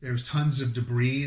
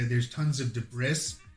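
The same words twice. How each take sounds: First: Debris is said the usual way. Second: Debris is said as it is spelled. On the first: The speaker calls it right. "instead of saying" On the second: The speaker calls it wrong. "they say"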